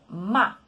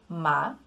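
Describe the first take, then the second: First: The pitch falls sharply from high. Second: The pitch rises from mid to high. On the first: It means to scold. "um tom forte descendente... sobe lá do alto e desce de uma forma rápida" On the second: It means a kind of herb. "o segundo tom, ficando ma... sai daqui de uma altura média e sobe"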